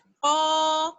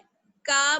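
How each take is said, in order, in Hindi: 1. यह व्यंजन अंदर पीछे की तरफ़ गहराई से बनता है, भारी। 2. यह व्यंजन आगे की तरफ़ बनता है, हल्का और पतला। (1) "ज़ुबान की जड़ ऊपर के तालू के नर्म वाले हिस्से से टच होगी" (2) "का नहीं पढ़ना है, का बल्कि गलत हो जाएगा"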